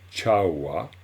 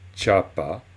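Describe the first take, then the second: First: The middle consonant is a w sound. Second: The middle consonant is a p sound. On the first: The speaker calls it right. "on dit chawa" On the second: The speaker calls it wrong. "et non pas chapa"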